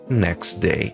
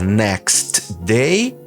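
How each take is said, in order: First: The t is dropped, running straight into day. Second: The t at the end of next is pronounced. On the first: "eu posso simplesmente suprimir um deles. Nesse caso, o D se sobressai" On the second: "ao invés de falar"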